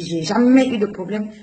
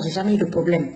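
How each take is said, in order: First: J'ai jamais eu de problème with jamais pushed up in a rising insistence; insisting repeat. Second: Said in the usual way. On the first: Retold or imitated. To the doctor, repeating she never had problems, more insistent. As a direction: repeat it harder, lifting jamais. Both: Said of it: "Je dis".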